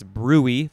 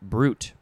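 First: The word has two syllables, the first stressed. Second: The word is said as one syllable. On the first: "The emphasis is on the first syllable" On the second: "So that is pronounced brute"

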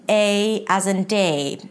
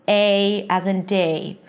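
No difference in how they are said.

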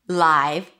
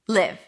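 First: The vowel sounds like 'eye'. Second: The vowel sounds like 'it'. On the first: It describes something happening in real time. "then it's the I, as in my" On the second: It means to reside somewhere. "then it's a relaxed I sound"

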